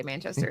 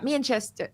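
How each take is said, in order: First: Said in the usual way. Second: Half-hearted attempt at a Manchester accent. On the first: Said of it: "don't know how to say Manchester". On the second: Shown as a demonstration. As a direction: try a Manchester accent, badly faked. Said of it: "don't know how to say Manchester in an accent".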